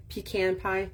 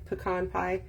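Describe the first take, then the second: First: "pecan" as PEE-can, stress on the first syllable, short flat "can"; pecan said one way. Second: "pecan" as puh-KAHN, weak first syllable, stress on a long "kahn"; pecan said the other way. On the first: Crafter to viewers, trying the first way of saying pecan. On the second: Crafter to viewers, trying the other way of saying pecan. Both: Shown as a demonstration. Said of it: "Do you say pecan or pecan?".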